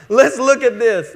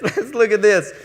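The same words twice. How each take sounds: First: Laughing through the words; still laughing. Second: Said in the usual way. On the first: Real, not acted. Pastor to congregation, laughing. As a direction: chuckle it out, still amused.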